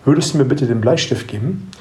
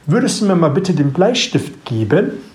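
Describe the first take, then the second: First: The pitch stays level at the end. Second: The pitch rises at the end of the sentence. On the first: It is heard as a statement. "mit der Sprechgeschwindigkeit gleichbleibend spreche" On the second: It is heard as a real question. "Jetzt bin ich mit der Stimme am Ende nach oben gegangen"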